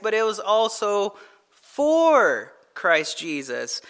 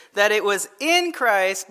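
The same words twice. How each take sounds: First: "for" stretched very long, then a break before "Christ Jesus"; slow right down and hold "for"; stress on FOR. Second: "in" given the weight before "Christ"; stress on IN. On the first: Preacher completing Paul's stance, "for" drawn out slowly. Sets for against in. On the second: Preacher restating Paul's stance, stressing "in". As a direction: lean on the word "in". Sets in against for. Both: Shown as a demonstration.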